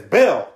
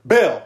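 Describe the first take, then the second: First: A louder, clipped coach calling his name; coach's voice. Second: Louder stern coach calling the name; coach's voice. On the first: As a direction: call him out like the coach. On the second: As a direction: bark his name like the coach. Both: Retold or imitated. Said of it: "you did his voice too".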